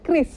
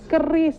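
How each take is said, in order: First: K and R are said together, no vowel. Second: A vowel is heard between K and R. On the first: The speaker calls it right. "Kris yang betul" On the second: The speaker calls it wrong. "ada yang nyebutnya keris"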